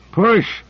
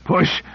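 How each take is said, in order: First: Higher, louder breathless shout; louder gasping push. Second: Breathless strained call; gasping push. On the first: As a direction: strain harder, call it out. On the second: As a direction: gasp out the word, straining. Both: Acted. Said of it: "gasping out".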